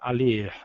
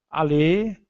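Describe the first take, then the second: First: The final r is pronounced. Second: The final r is silent. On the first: The speaker calls it wrong. "nós não vamos falar a ler" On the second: The speaker calls it right. "somente o e é pronunciado, nós não vamos pronunciar o r"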